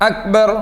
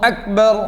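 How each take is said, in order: The two takes are said the same way.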